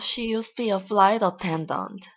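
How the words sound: It is said in an envious tone.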